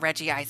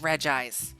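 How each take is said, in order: First: The first part has two syllables before ice. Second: The first part has one syllable before ice. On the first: The speaker calls it right. "I'm pretty sure it's Reggie Ice" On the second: The speaker calls it wrong. "everyone started like telling me like, no"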